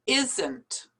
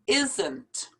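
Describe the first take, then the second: Both takes have the same delivery.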